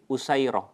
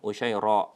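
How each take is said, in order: First: It has an s sound and ends in -ah. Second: It has sh and ends in long a, catch. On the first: "Usairah dengan sin biasa tanpa titik" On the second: "ro, kemudian mat panjang ... Lalu kemudian hamzah"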